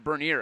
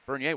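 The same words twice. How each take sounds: First: The name is said with an English pronunciation. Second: The name is said with a French pronunciation. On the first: The speaker calls it right. "Not the French pronunciation, I was told" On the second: The speaker calls it wrong. "excuse me"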